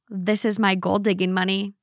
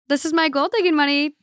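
First: It is said in a heavier, cutting tone. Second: It is said in a light, playful tone. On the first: The remark is a real reproach. "it could have been lighter than" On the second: The remark is a friendly joke. "It all depends on the tone"

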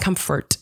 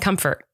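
First: The final T is hit hard and clearly released. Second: The final T is soft or barely heard. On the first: "you're really hitting the T at the end" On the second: "And I'm not. I'm saying comfort"

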